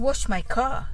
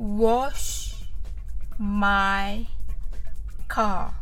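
First: The phrase is spoken fast. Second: The phrase is spoken slowly. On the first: "次に早く言ってみましょう。" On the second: "はじめはゆっくりです。"

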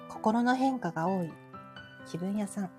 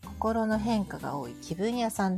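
First: It is said in a put-on fortune-teller voice. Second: It is said in the speaker's ordinary voice.

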